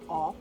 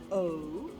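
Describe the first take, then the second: First: The vowel is said as a short sound. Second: The vowel is said as a long sound. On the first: "For the short vowels, we say" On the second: "Long vowels are"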